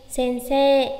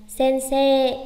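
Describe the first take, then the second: Both takes have the same delivery.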